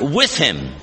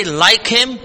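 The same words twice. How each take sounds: First: "with" set down low and firm; weighted "with", dropping in pitch to close; stress on WITH. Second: "like" pitched high as the rejected word; raised, pointed "like"; stress on LIKE. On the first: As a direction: land on "with" as the correct word. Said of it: "Note also the, the phrase, "with him". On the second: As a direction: lift "like" up for contrast. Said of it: "It doesn't say". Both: Shown as a demonstration.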